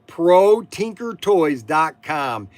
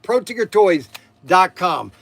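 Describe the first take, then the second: First: It is said very slowly. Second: It is said at normal, quick speed.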